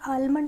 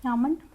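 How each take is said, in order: First: The L sound is clearly pronounced. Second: The L sound is left out entirely. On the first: The speaker calls it wrong. "ये आलमंड नहीं होता है" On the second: The speaker calls it right. "आमंड होता है"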